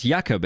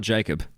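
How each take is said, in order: First: Jakob said YAH-kob, German J as Y. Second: Jacob said JAY-cub, English J. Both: Shown as a demonstration. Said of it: "the way I'm saying it".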